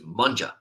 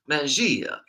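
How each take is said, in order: First: The word starts with a 'mun' sound. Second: The word starts with a 'man' sound. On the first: This is how it is actually said. The speaker calls it right. "it's just Munja" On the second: This is how the spelling seems to suggest it. The speaker calls it wrong. "It seems like it should be Mangia"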